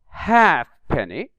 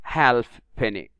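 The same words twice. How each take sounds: First: No l sound is heard in the first part. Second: An l sound is heard in the first part. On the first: The speaker calls it right. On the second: The speaker calls it wrong.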